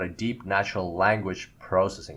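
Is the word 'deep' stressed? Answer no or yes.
no. The word deep carries no special stress. The speaker calls it wrong.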